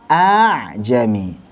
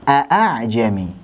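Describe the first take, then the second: First: The hamzah is replaced by a long drawn vowel. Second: The second hamzah is a clear, full glottal stop. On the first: "Kalau hamzah dengan mad, a dibaca panjang" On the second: "Kalau hamzah-hamzah muhaqqaqah"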